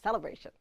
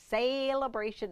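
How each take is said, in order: First: It is said with a standard, plain pronunciation. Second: It is said with a Southern-sounding pronunciation. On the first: "instead of celebration" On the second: "No, I'm not from the South. I'm just using celebration"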